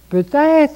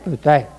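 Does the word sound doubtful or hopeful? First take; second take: hopeful; doubtful. First: It is said in a warm, hopeful tone. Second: It is said in a flat, doubtful tone. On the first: There is hope it will still happen. The speaker calls it right. "C'est plein d'espérance" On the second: The outcome is unlikely. The speaker calls it wrong. "Pas peut-être"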